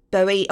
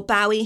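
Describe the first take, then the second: First: Bowie said as BOH-ee; Bowie with first syllable like "bow" in rainbow; first pronunciation variant. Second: Bowie said as BOW-ee; Bowie with first syllable like "bough"; alternative pronunciation. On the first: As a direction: say Bowie with a long O, rhyming with snowy. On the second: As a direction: say Bowie with an "ow" as in cow. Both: Shown as a demonstration. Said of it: "however you pronounce it".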